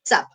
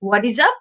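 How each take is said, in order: First: It is squeezed into one syllable. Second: All three words are said separately in full. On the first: "আরো বেশি contracted form হচ্ছে চাপ"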